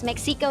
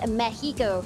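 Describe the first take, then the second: First: It is pronounced the English way. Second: It is pronounced the Spanish way. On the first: The speaker calls it wrong. "you don't pronounce it as Mexico" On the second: The speaker calls it right. "it's Mexico"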